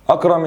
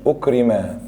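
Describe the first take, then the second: First: أكرم read "akram", opening on a; a-vowels in both syllables of أكرم; active vowels. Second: أكرم read "ukrima", u then i; passive vowels. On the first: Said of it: "حول من مبني للمعلوم لمبني". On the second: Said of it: "لمبني المجهول لمبني معلوم". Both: Shown as a demonstration.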